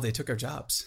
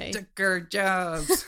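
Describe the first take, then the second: First: It is said without the full comic accent. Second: It is said in an exaggerated comic accent. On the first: The speaker calls it wrong. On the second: The speaker calls it right.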